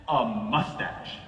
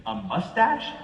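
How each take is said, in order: First: A mustache, low and very slow, stated flatly; flat verdict. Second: Mustache? with a high rising question tune. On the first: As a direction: drop it low and drag it out like a final judgement. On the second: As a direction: ask it as a puzzled question, a mustache rising up at the end. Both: Retold or imitated. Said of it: "And she goes".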